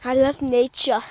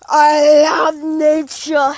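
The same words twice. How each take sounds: First: Said in the usual way. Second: Very slow, stretched-out declaration; milk every word, slowly; hammed-up, long-held vowels; drawn-out gushing. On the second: Hammed-up gushing over nature.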